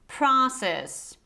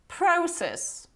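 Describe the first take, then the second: First: The first vowel is an open ah sound. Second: The first vowel is a rounded o sound. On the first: "American pronunciation would be process ... instead of this O sound, you have this pra" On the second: "the proper British pronunciation will be process"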